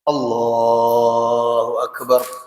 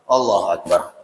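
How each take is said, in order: First: It is said with warm, devoted feeling. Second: It is said flatly, without any intent.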